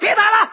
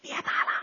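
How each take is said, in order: First: It is said loudly, with force. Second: It is said quietly, barely audible.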